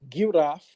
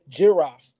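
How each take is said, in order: First: The word starts with a hard G sound. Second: The word starts with a J sound. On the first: "you don't say giraffe with a G" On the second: "they pronounce the letter Gimel with a J"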